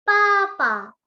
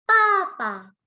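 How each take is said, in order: No difference in how they are said.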